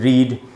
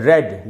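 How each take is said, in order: First: The vowel is a long ee sound. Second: The vowel is a short e sound. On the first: It is used as a verb meaning to read. "जब ये verb की तरह use होगा तो ये उच्चारण है रीड" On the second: It is used as an adjective meaning well-read. "जब ये एडजेक्टिव यानी विशेषण की तरह इस्तेमाल होगा तो इसका उच्चारण हो जाता है"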